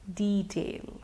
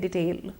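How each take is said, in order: First: The first vowel is a long E. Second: The first vowel is not a long E. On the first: The speaker calls it right. "Actually the pronunciation is detail" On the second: The speaker calls it wrong. "a lot of us often say detail"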